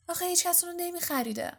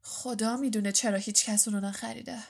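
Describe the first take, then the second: First: High, quick, pitying lilt. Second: Understated dry sarcasm; sarcastic. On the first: Girl pitying a cat nobody would buy, high and tender. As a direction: raise the voice in soft-hearted pity. Hermione pities the unsold cat. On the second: Boy jibing at his friend's new cat, dryly sarcastic. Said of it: "رون با نیش و کنایه گفت". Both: A narrator's reading.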